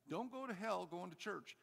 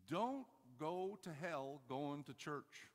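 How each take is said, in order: First: Higher, quicker-moving repeat; insistent repeated warning. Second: Stretched out, deliberate warning; slow emphatic warning. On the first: Preacher repeats warning after "did you hear me?", higher and insistent. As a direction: drive the warning home in a higher pitch. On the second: Preacher warns churchgoers not to go to hell, slow and emphatic. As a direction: draw out each part of the warning slowly. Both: Real, not acted.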